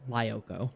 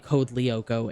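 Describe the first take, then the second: First: Lyoko is said as an American would read it. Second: Lyoko is said with its original, non-American pronunciation. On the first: "I would have said Lyoko" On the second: "I wouldn't say Code Lyoko in E- in American"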